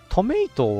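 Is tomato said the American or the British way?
American. The middle vowel sounds like 'may'. "アメリカ英語で"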